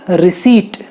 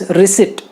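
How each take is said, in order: First: Receipt said ri-seet with no p; correct receipt. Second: Receipt as ri-seet, silent p; receipt without p. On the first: Teacher correcting students, receipt without p. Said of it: "it is". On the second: Teacher correcting students, receipt with silent p. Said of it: "प नहीं आता उसमें". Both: Shown as a demonstration.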